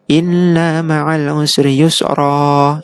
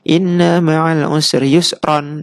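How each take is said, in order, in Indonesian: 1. Kata terakhir berakhir dengan vokal a panjang. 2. Kata terakhir berakhir dengan bunyi n. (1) "Fathah tapi dibaca panjang" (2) "semula ron"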